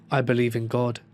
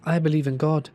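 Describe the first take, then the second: First: Said in the usual way. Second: Higher echo of the words; higher-pitched mimicking lamb; lamb parroting back. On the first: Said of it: "Started saying". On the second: A narrator's reading. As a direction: parrot it back in a raised creature voice. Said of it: "The lamb parroted back".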